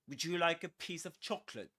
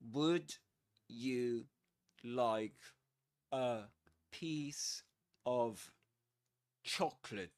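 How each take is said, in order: First: The words run together quickly and smoothly. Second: The words are said slowly and separately. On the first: This is how native speakers naturally talk. The speaker calls it right. "that's the connected speech version" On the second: Native speakers do not usually talk like this. The speaker calls it wrong. "let's first say it uh, slower"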